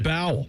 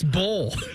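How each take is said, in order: First: The vowel sounds like the one in owl. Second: The vowel sounds like the one in hole. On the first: This is how the spelling suggests it should sound. The speaker calls it wrong. "It should be" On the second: This is how the word is actually said. The speaker calls it right. "But it's bowl"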